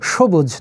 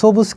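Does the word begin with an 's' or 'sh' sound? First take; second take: sh; s. First: The word begins with a soft 'sh' sound. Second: The word begins with a sharp 's' sound. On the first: The speaker calls it right. "উচ্চারণ করি সবুজ। তার মানে দন্ত স এখানে তালব্য স হবে।" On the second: The speaker calls it wrong. "আমরা লিখি দন্ত স দিয়ে সবুজ, কিন্তু আমরা সবুজ কিন্তু উচ্চারণ করি না"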